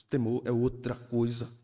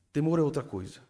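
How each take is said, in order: First: "Temor é outra coisa" said slowly, weight on "outra"; solemn stress on "outra"; slow emphatic statement. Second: Lighter repeat. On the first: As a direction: lean on "outra", slowly and gravely. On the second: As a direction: lift the repeat and let it fall. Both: Shown as a demonstration.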